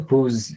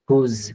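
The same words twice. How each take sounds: First: The word ends in a soft 'z' sound. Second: The word ends in a soft 'z' sound.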